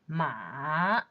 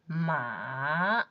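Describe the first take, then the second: First: The pitch dips low and then rises. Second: The same.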